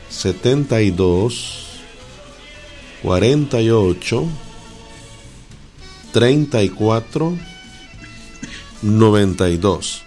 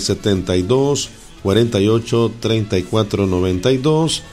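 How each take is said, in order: First: The number is said slowly with pauses. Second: The number is said at normal speed.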